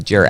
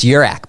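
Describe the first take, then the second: First: The name starts with a hard J sound. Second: The name starts without a hard J sound. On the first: The speaker calls it wrong. "so you'd think it'd be Jurak" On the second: The speaker calls it right. "It's Urak"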